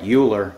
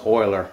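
First: Euler said as YOO-ler; read as spelt. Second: Euler said as OY-ler; German pronunciation. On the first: Showing how the name looks, Euler said YOO-ler. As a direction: say Euler with an English "you" at the start. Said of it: "It looks like Euler". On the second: Explaining the German name, Euler said OY-ler. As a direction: say Euler with an "oil" sound at the start. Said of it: "in German it's pronounced Euler". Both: Shown as a demonstration.

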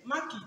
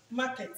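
First: "market" with a short i in the second syllable, MAR-kit; normal pronunciation. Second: "Market" with a full e, mar-KET; everyday local pronunciation. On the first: Participant showing the real pronunciation, MAR-kit. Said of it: "that is normal pronunciation". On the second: Participant showing what everybody says, local mar-KET. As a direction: say "Market" with a clear -ket ending. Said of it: "But everybody say market". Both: Shown as a demonstration.

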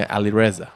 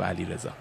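First: "علیرضا" said the foreign way, as Ali-Reza; foreigners' pronunciation. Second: "علیرضا" said the Persian way, as Alirezā; native pronunciation. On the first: Retold or imitated. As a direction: say "علیرضا" as foreigners pronounce the name. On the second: Shown as a demonstration. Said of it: "حالا بیا بهشون بگو نه".

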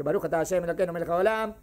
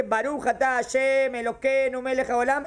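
First: Fast, lower-pitched blessing recital; quick blessing. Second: Reciting a blessing. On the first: Teacher re-enacting a blessing said quickly, rapid recitation. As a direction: rattle through the blessing in one go. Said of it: "yo dije rápido". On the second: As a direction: draw the blessing out evenly, word by word. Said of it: "Cuando yo dije". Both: Acted.

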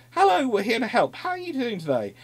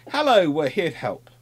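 First: "Hello" much higher, bright mock-friendly greeting; a hammed-up chirpy hello; cheery naval party. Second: "Hello" lifted and louder, friendly greeting; cheery naval party. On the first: Sailors greeting the next village, higher and chirpier. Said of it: "appear in another village and go". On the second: Retold or imitated. Sailors greeting villagers, a bright mock-friendly hello. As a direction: play the cheerful sailors arriving. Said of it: "appear in a village far inland and go".

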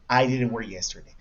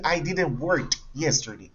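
First: Said in the usual way. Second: "work" said with a past-tense t ending, "worked"; wrong verb form. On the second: Shown as a demonstration. Teacher shows learners the forbidden sentence, "work" ending as "worked". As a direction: put a final t on "work". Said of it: "yo no puedo decir".

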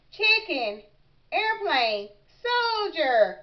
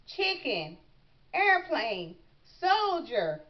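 First: Louder, slightly effortful repeat; a touch of storybook gasping; mild gasping. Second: Said in the usual way. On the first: A narrator's reading. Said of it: "gasped Froggy". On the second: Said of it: "repeat after me".

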